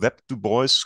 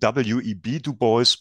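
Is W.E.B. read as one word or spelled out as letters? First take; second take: one word; spelled out. First: The initials are read together as one word. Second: The initials are spoken as separate letters. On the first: "Ich habe Web Du Bois gehört" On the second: "auch die Abkürzung W E B Du Bois"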